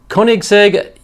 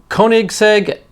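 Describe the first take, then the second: The two takes are said the same way.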